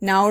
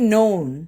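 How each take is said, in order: First: The vowel sounds like the one in 'now'. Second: The vowel sounds like the one in 'no'. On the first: The speaker calls it wrong. "നൗൺ എന്നല്ല" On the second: The speaker calls it right. "നോൺ നോ എന്ന് പറഞ്ഞിട്ട്"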